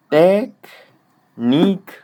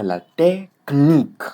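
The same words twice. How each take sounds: First: Slow, high, loud "technique" split as "tek... nique"; faulty pause. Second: "la technique" as "la té... knique", louder; pause before consonants. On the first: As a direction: separate k from n in "technique" with a long gap. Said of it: "Mais si tu mets". (« technique » fort et lent, coupé entre k et n) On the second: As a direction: stretch "té", then join "kn" in "technique". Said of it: "mettre la pause avant ou après". (« la technique » avec la pause avant « kn ») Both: Shown as a demonstration.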